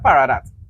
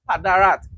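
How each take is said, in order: First: The second consonant is r, the third d. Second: The second consonant is d, the third r. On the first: The speaker calls it wrong. "I always pronouncing the man name wrong" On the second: The speaker calls it right. "Padarat, not Paradat"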